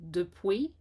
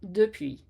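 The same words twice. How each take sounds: First: The vowel after p sounds like English w. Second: The vowel after p is a narrow French u. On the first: The speaker calls it wrong. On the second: The speaker calls it right.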